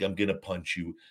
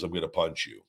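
First: It sounds serious and threatening. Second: It sounds playful and joking.

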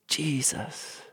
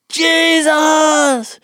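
First: It is said softly and gently. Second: It is said loudly and forcefully.

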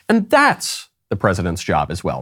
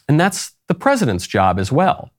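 First: The stress falls on a different word. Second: The stress falls on the word 'president's'. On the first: The speaker himself is the president. The speaker calls it right. "when he was supposed to say" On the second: Someone else is the president. The speaker calls it wrong. "The slip for Biden was he said"

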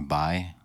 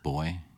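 First: The vowel is said the Bermudian way, like bye. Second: The vowel is said the plain American way, boy.

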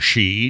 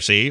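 First: The word begins with an sh sound. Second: The word begins with a plain s sound. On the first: The speaker calls it wrong. "Don't do the she part. It's not, it's Sean Connery in there" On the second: The speaker calls it right. "you can go, ah, listen here, see"

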